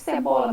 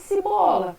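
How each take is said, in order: First: The first vowel is a mid e sound. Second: The first vowel is raised to an i sound. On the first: "ao invés de eu falar" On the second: "eu faço a troca espontânea das vogais E por I"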